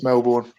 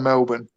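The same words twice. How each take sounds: First: It is said the speaker's English way. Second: It is said the local Australian way. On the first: This is how an English speaker says it. "to me it's Melbourne" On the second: This is how locals say it. "Melbourne to people from Melbourne"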